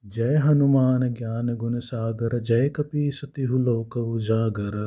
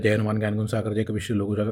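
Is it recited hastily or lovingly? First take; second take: lovingly; hastily. First: It is recited slowly with warmth and love. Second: It is recited hastily and carelessly.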